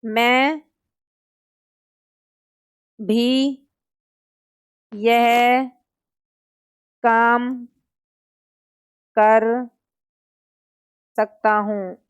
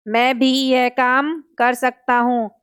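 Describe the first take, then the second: First: Each word alone with long pauses, for copying; teacher dictating a sentence for students to write down slowly. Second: Said in the usual way. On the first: Shown as a demonstration. Teacher dictates to students, word by word. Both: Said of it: "example हो गया जैसे".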